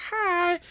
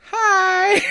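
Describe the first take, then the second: First: Put-on high bubbly Valley Girl greeting; Valley Girl accent. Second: Put-on high bubbly Valley Girl "Hi!"; Valley Girl accent. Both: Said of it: "almost Valley Girl accent".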